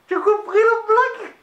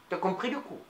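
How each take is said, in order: First: "blague" shouted high and loud; loud high question. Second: "coup" asked low and soft; quiet low question. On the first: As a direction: call out the question high over the room. Asks the audience, loud. (question criée bien haut) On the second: Asks again, quietly. (question murmurée, grave et douce) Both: Acted.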